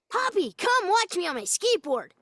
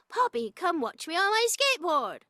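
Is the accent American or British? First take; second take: American; British. First: It is spoken with American intonation. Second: It is spoken with British intonation. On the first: "we don't talk like that. So I have to say" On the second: "Like in England, if I said"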